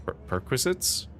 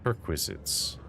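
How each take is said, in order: First: A baffled repeat that climbs into a question; puzzled echo. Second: Said in the usual way. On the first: Acted. Listener puzzled by the envoy's odd word, rising in disbelief.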